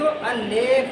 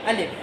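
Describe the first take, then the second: First: The second vowel sounds like 'e'. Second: The second vowel sounds like 'i'. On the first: The speaker calls it wrong. "इसको अलेफ नहीं पढ़ना" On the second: The speaker calls it right. "ये पढ़ा जाएगा अलिफ"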